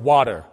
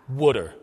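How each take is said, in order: First: It is said in a neutral accent. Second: It is said in an inner-city Philadelphia accent.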